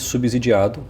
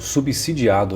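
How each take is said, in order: First: The middle consonant is a Z sound. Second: The middle consonant is an S sound. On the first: The speaker calls it wrong. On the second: The speaker calls it right.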